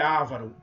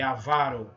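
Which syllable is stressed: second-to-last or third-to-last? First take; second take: third-to-last; second-to-last. First: The stress is on the third-to-last syllable. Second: The stress is on the second-to-last syllable. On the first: The speaker calls it wrong. "Não é" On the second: The speaker calls it right. "é avaro"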